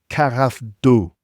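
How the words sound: It is said with an exaggerated French accent. "even doing it like that makes me feel ridiculous"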